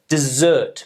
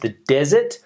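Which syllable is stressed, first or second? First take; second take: second; first. First: The stress is on the second syllable. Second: The stress is on the first syllable. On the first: It names the action of abandoning. "meaning to abandon" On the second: It names barren land where nothing grows. "the barren land where nothing grows"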